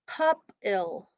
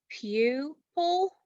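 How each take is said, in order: First: The first vowel sounds like 'uh'. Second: The first vowel sounds like 'you'. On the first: The speaker calls it wrong. "If we have it in between two consonants, it's going to say uh" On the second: The speaker calls it right. "if we break it after the U, ... it's going to say you"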